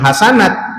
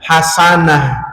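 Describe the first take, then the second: First: The word ends with a t sound. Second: The word ends with an h sound. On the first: The speaker calls it wrong. "bukan hasanat" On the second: The speaker calls it right. "bila mana sukun bunyi seperti hak"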